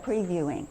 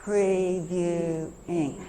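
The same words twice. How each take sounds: First: Said in the usual way. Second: "Previewing" very slow, as pre, view, ing; chunked word. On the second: Shown as a demonstration. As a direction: draw out all three parts of "Previewing". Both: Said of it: "So we're chunking".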